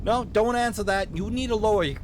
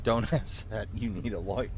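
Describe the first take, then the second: First: Loud, high Minnesotan cop cutting in; hasty warning in a Minnesotan accent; emphatic Minnesotan officer, pitched up; vaguely Minnesotan accent. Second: Chuckling through the words; lower, offhand laughing aside; amused repeat. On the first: Acted. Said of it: "give him a vaguely Minnesotan accent". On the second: Real, not acted. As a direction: echo it in your own voice, laughing.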